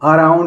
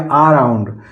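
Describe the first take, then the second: First: The word starts with a short uh vowel. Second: The word starts with a long aa vowel.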